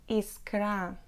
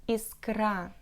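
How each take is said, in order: Both takes have the same delivery.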